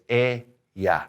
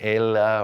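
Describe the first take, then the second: First: The double L sounds like a Y. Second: The double L sounds like an L. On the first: The speaker calls it right. "Remember that double L sounds like ya. So it's ella" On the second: The speaker calls it wrong. "A lot of people want to say ella"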